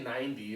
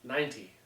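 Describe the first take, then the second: First: The middle consonant is a soft D sound. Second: The middle consonant is a clear T sound. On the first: The speaker calls it wrong. "I don't say ninety. It's not N I N D Y" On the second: The speaker calls it right. "it's got a T in it"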